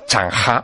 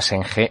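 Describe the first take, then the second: First: The name is said with Chinese-style sounds. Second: The name is said with Spanish-style sounds.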